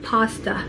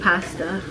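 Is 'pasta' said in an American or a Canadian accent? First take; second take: American; Canadian. First: It is said with an American pronunciation. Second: It is said with a Canadian pronunciation. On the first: "Americans call it pasta" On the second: "it comes naturally just saying pasta"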